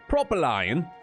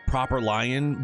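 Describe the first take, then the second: First: It is said in a put-on British accent. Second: It is said in the speaker's ordinary accent.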